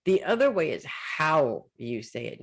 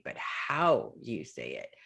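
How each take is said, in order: First: Said in the usual way. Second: "how" leaned on, slower and softer; slow down and press on "how"; dropping low to hammer home "how"; stress on HOW. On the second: Shown as a demonstration.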